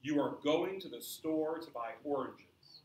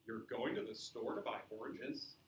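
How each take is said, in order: First: Falling tune at the end; plain statement, slow. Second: Rising tune at the end; asking, rise at the end; question. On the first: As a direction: say it flat and final, going down on oranges. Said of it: "Here's sentence number one". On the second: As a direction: lift the voice on oranges as a question. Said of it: "sentence number two". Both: Shown as a demonstration.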